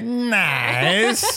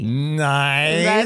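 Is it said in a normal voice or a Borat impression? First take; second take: Borat impression; normal voice. First: It is said in a Borat impression. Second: It is said in a normal voice.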